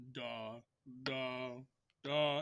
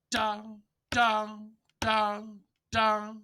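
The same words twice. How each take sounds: First: DA, DA, DA held long with a slight gap after each; sing-out each "da" evenly, long but separated, no punch; low, unaccented "da" notes, lightly spaced; staccato tenuto. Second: DA, DA, DA, DA hit loud then decaying; louder, higher "da" notes, each with a slight decay; accented notes. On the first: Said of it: "they just wanna add that space". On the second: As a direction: punch the front of each "da" and let it fade. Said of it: "slightly above that mezzo forte and". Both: Shown as a demonstration.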